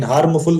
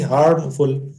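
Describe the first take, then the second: First: हार्मफुल as two full words, "haarmu-full"; wrong pronunciation. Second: हार्मफुल as one word, "haam-ful", M straight into F; correct pronunciation. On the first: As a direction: join हार्म and फुल with an extra vowel. (हार्मफुल, हार्म और फुल अलग-अलग जोड़कर) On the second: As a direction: model हार्मफुल with no vowel after the M. (हार्मफुल, एक शब्द में सही उच्चारण) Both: Shown as a demonstration. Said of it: "हार्मफुल तो कहेंगे नहीं".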